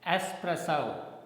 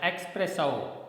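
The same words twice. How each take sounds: First: It begins with an s sound, no x. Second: It begins with an x sound, like expresso. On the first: The speaker calls it right. "the sound xo is silent" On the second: The speaker calls it wrong. "generally we speak it as espresso"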